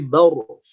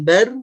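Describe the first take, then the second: First: The r is pronounced heavy and full. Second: The r is pronounced light and thin. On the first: The speaker calls it right. "tapi baur" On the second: The speaker calls it wrong. "Bukan bar"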